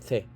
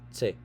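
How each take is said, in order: First: The first sound is a 'th' sound. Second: The first sound is an 's' sound. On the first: This is how we normally say it. The speaker calls it right. "Pero ang banggit natin diyan the" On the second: This is how someone with a Korean accent says it. The speaker calls it wrong. "hindi niya mabanggit yung th"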